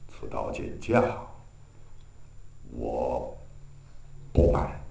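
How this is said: It is said in a subdued, deflated way. The hero is down and out but keeps his dignity. The speaker calls it right. "就没有那么豪气冲天"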